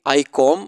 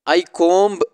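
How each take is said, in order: First: The b at the end of comb is silent. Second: The b at the end of comb is pronounced. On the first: The speaker calls it right. "यहाँ पर बी silent है" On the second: The speaker calls it wrong. "ये गलत हो गया"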